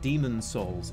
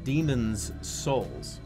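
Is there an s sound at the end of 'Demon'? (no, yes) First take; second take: no; yes. First: Demon is said without an s sound. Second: Demon is said with an added s sound. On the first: The speaker calls it wrong. "It's not Demon Souls" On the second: The speaker calls it right. "It's Demon's Souls"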